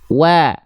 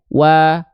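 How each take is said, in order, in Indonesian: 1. Vokal ini diucapkan tipis, bibir direntangkan seperti tersenyum. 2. Vokal ini diucapkan dengan mulut terbuka biasa. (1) "kita lafalkan sambil seolah tersenyum" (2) "kalau buka mulut doang kan berarti begitu ya"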